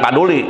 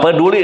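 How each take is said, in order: First: The first vowel is an open 'a'. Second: The first vowel is a schwa. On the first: The speaker calls it wrong. "Dalam bahasa Sunda paduli" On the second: The speaker calls it right. "peduli bukan paduli"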